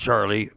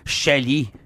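First: The name is said with an audible R. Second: The name is said with a silent R.

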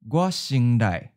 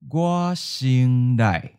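First: It is said at a natural, quick pace. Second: It is said slowly and carefully. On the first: "Once natural speed" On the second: "and then slow"

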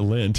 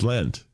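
First: The vowel sounds close to the one in 'lint'. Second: The vowel sounds like the one in 'lentils'. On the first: The speaker calls it wrong. "Not Lent" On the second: The speaker calls it right. "It's Lent. Like lentils"

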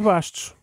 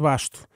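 First: The name ends with an s sound. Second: The name ends without an s sound. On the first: The speaker calls it wrong. "ele não é Bessone Bastos" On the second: The speaker calls it right. "quanto muito é Bessone Basto"

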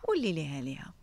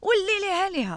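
First: The phrase is said in a calm, gentle tone. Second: The phrase is said in a very angry tone. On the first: "Maar je kan ook" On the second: "als je heel boos zeggen"

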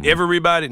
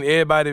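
First: The word is said with an er sound. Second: The word is said with an eh sound. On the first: This is not how it is said locally. The speaker calls it wrong. "I can't sign off on that at all" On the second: This is how it is said locally. The speaker calls it right. "it has more of an EH sound than an ER sound"

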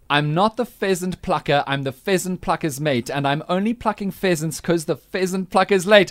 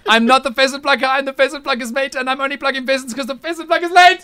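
First: It is said at a slower pace. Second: It is said at a faster pace.

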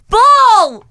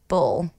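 First: It is yelled with excited energy. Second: It is said flatly, without energy.

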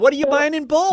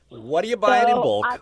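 First: The question sounds friendly and neutral. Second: The question sounds judgmental and disapproving. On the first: The speaker is simply curious. The speaker calls it right. "There you go" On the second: The speaker disapproves of bulk buying. The speaker calls it wrong. "Why do you say it like that, Bean? You don't have to be so judgmental"

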